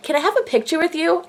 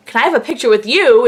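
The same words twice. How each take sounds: First: High, cutesy imitation of her asking; really cute. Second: Mock-incredulous repeat in your own pitch; retold disbelief. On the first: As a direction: mimic a sweet little request. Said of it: "like, really, like, cute". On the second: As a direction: echo the question back, louder on YOU. Fan echoes the star's question back.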